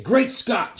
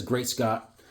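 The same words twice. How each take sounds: First: "Great Scott" called out higher, hit on "Great"; rallying "Great Scott". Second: Said in the usual way. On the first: Retold or imitated. Soldiers cheering their general, a higher rallying cry. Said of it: "all his men used to say". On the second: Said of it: "Superman says".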